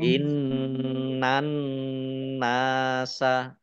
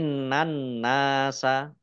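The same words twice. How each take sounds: First: The n is held with a nasal hum. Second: The n is short without a nasal hum. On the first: "dibaca mendengung ditahan dua harokat" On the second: "Kalau itu berarti tidak mendengung ya"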